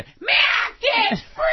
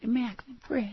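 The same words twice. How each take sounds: First: The names are said loudly in an excited voice. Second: The names are said quietly in a normal voice. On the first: "But you ask her off the air" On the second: "on the air, she's just like"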